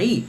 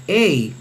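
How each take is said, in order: First: "i" as one pure ee vowel; Reuchlinian reading. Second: "ei" as a diphthong, both vowels heard, e gliding to i; Erasmian reading. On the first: Teacher gives the Reuchlinian sound of the diphthong, "i" as plain ee. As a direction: say just "i", no e before it. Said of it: "en la pronunciación reucliniana suena i". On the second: Teacher gives the Erasmian sound of a Greek diphthong, "ei" with both vowels. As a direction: say "ei" like Spanish "ey". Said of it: "en la pronunciación erasmiana suena". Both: Shown as a demonstration.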